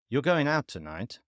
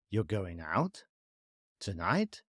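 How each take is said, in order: First: The pitch falls at the end. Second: The pitch rises at the end. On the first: It is a statement or shows certainty. "Falling intonation indicates a statement or certainty" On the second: It is a question or shows uncertainty. "rising intonation indicates a question or uncertainty"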